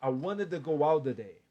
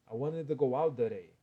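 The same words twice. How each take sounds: First: "out the day" with a clear d between the words; d sound in "out the day". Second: "out the day" with a quick tapped r between the words; flapped r in "out the day". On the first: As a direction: link "out the" with a d. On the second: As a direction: tap an r into "out the day". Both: Shown as a demonstration. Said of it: "E aqui pode virar um R".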